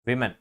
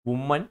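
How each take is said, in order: First: The first syllable sounds like 'wih'. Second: The first syllable sounds like 'woo'. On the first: The speaker calls it right. "വിമൻ എന്ന് പറയുന്നതാണ് അതിൻ്റെ pronunciation" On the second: The speaker calls it wrong. "Not വുമൻ"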